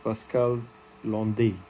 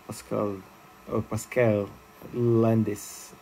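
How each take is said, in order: First: The surname is pronounced the French way. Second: The surname is pronounced the Irish way. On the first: "in French" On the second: "the Irish calls him"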